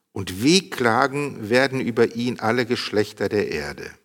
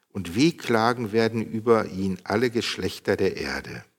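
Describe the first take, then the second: No difference in how they are said.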